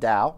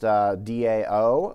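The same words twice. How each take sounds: First: It rhymes with cow. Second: It does not rhyme with cow.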